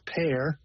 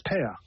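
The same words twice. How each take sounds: First: Said in the usual way. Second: "pear" with no R sounded at the end; "pear" ending on an open vowel, as "peh-uh"; English R-less ending. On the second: Shown as a demonstration. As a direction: drop the final R of "pear", English-style. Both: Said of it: "There's no R at the end".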